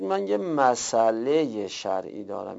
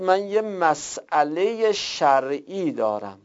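First: مسئلهٔ said smoothly as "ma-saleye"; eased مسئلهٔ, s running straight into the vowel; hamza dropped. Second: مسئلهٔ said "mas-'aleye", with a catch after the s; careful full مسئلهٔ, split between s and vowel; hamza pronounced. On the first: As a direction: leave out the glottal stop in مسئلهٔ. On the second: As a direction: sound the glottal stop in مسئلهٔ. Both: Shown as a demonstration. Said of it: "اینجا همزه رو دیگه نمیگید".

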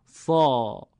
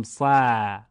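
First: «صا» with a thick, dark, rounded long vowel; slow emphatic Arabic «صا»; correct heavy vowel. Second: «صا» with a thin, light, fronted long vowel; mis-say «صا» as a light "saa", like English "sad"; thin, un-emphatic «صا»; wrong thin vowel. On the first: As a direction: hold «صا» full and heavy, toward "saw". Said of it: "میگیم صا". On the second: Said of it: "دیگه نمیگیم صا". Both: Shown as a demonstration.

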